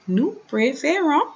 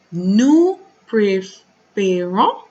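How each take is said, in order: First: Said in the usual way. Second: Nous préférons stretched out very slowly, each syllable drawn apart; slow, deliberate teaching demo of Nous préférons; slow syllable-by-syllable model. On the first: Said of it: "teacher repeats after slow model". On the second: Shown as a demonstration. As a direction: spell it out slowly for the class. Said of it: "teacher models then repeats".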